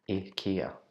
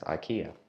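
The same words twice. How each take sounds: First: The name begins with an 'ee' sound. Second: The name begins with an 'eye' sound. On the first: This is how the name should be said. The speaker calls it right. "we should pronounce it IKEA" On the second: This is how the speaker always said it. The speaker calls it wrong. "I've been calling it to my friends IKEA"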